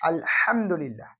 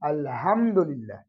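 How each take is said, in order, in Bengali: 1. h হলো গলা থেকে আসা একটি কর্কশ ধ্বনি। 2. h হলো একটি সাধারণ, হালকা শ্বাসযুক্ত ধ্বনি। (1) "যদি এই হা এই হাতে ব্যবহার করি" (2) "নিচে যে হা কোন মাখাজ নাই"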